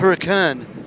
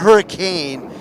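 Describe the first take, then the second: First: The last syllable is reduced, like 'kin'. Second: The last syllable sounds like 'cane'. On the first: The speaker calls it right. "I've been a been corrected many times to correctly pronounce it" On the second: The speaker calls it wrong. "It's not hurricane"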